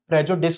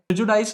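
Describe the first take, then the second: First: The last syllable sounds like 'dis'. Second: The last syllable sounds like 'dize'. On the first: The speaker calls it right. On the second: The speaker calls it wrong.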